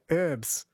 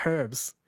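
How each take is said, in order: First: "herbs" with the H dropped, "erbs"; American silent H. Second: "herbs" with the H pronounced; sounded H. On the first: Retold or imitated. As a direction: say "herbs" starting straight on the vowel. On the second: Shown as a demonstration. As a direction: say "herbs" starting on an audible H. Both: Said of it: "there is clearly an H".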